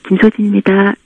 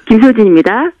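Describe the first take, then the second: First: The voice is weak, low and lifeless. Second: The voice is bright, lively and energetic. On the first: The speaker calls it wrong. "죽어가는 목소리" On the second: The speaker calls it right. "밝고 활기차게"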